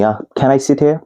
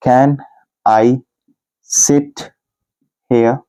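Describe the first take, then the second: First: Said in the usual way. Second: Each word set apart with long pauses; slow, word by word. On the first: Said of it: "teacher models natural question". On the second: Shown as a demonstration. Teacher spelling out the question for students, word by word. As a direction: dictate it slowly, one word at a time. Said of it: "teacher dictates word by word".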